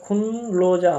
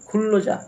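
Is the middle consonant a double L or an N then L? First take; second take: N then L; double L. First: The middle is an n followed by l. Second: The middle is a doubled l sound. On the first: The speaker calls it wrong. "এখানে খুনলোজা হবে না" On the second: The speaker calls it right. "নিয়নের উচ্চারণটা রিউল হয়ে যায়"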